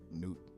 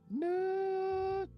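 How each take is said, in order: First: It is said quietly and gently. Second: It is said louder and more assertively.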